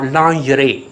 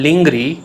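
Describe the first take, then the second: First: It is said like 'lon-zhuh-ree', the French way. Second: It is said as spelled, like 'lin-gree'. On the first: The speaker calls it right. "it's lingerie" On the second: The speaker calls it wrong. "It's not lingri"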